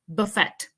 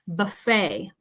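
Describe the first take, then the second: First: The final T sound is pronounced. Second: The final T sound is silent. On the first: The speaker calls it wrong. "We don't say buffet. That sounds kind of strange" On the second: The speaker calls it right. "we don't pronounce the T at the end of this word"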